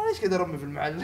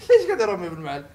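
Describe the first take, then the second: First: Said in the usual way. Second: Laughing. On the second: Shown as a demonstration.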